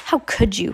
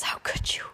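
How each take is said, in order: First: Said in the usual way. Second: Breathy unvoiced whisper, barely there; hoarse whisper. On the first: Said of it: "Like this". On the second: Shown as a demonstration. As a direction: rasp it out under your breath. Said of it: "Klaus whispered hoarsely. / Like this".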